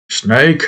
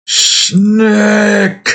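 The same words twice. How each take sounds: First: Said in the usual way. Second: "Snake!" called out high as "snack", with a short a. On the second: Shown as a demonstration. Calling the toy snake, saying "Snake!" as "snack". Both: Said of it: "I didn't even mean to do snack".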